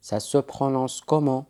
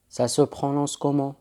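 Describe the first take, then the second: No difference in how they are said.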